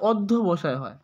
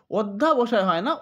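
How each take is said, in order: First: অধ্যবসায় said with a short অ after ধ্য, lower and settled; correct form. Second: অধ্যাবসায় said with a long আ after ধ্য; wrong spelling said. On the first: Teacher settling the correct অধ্যবসায় for the class. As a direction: give the correct অধ্যবসায় without the আ. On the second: Teacher voicing the misspelling অধ্যাবসায় to students. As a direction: stretch the wrong form অধ্যাবসায় with an open আ. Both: Shown as a demonstration.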